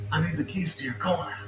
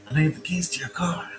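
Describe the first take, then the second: First: Said in the usual way. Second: Urgent unvoiced whisper. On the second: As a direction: hiss the demand secretly. Repeated as a whisper.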